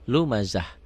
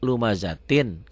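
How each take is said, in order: First: The word ends with an h sound. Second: The word ends with a -tin sound.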